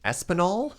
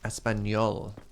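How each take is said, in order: First: The last n is a plain n sound. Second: The last n has a 'ny' sound. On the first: The speaker calls it wrong. "That's one a lot of Anglophones get wrong" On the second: The speaker calls it right. "At least you got the N right"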